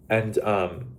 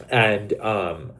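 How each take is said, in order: Both takes have the same delivery.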